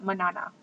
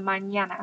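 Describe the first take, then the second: First: The middle consonant is a plain n sound. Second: The middle consonant is a ny sound. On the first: The speaker calls it wrong. "It's not manana" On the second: The speaker calls it right. "you need to make it ña"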